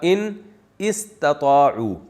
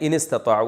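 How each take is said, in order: First: The second word starts with its own vowel. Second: The words run together with the vowel dropped. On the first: This is the underlying original form. "असल में था" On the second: This is how it is actually recited. "मिला के पढ़ा दिया ... अलिफ साइलेंट हो गया"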